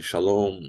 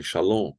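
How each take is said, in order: First: Shalom with lips pressed shut on the M; correct final M. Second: Shalom with the final M left open; wrong final M. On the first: Teacher correcting students, shalom with a closed final M. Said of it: "fechando bem os lábios". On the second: Teacher warning students, shalom with an unclosed ending. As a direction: say shalom without closing the lips on the M. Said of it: "vocês não falem". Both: Shown as a demonstration.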